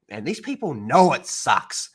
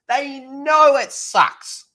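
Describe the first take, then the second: First: Said in the usual way. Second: "know" stretched out very slow, much higher and louder; stress on know. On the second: Real, not acted. Streamer insisting to his viewers, drawn-out stressed "know". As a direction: drag "know it sucks" out slowly, high. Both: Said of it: "restated with emphasis".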